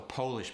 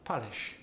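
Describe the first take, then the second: First: The first vowel is a long O sound. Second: The first vowel is an A sound. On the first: "that's a long O" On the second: "Switch it to an A"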